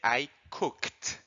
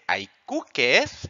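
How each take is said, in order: First: The ending is said as a plain t sound. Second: The ending is said as an extra syllable. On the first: The speaker calls it right. "la e es muda... Suena como una T" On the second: The speaker calls it wrong. "no se dice I cooked"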